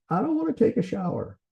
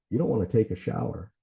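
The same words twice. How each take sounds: First: Much higher-pitched mock child complaint; imitated little kid. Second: Said in the usual way. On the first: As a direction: play a small child refusing, pitched way up. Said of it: "used it with my kids when they were little". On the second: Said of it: "repeating back what they said".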